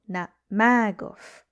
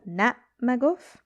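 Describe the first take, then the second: First: The stress is on the second syllable. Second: The stress is on the first syllable.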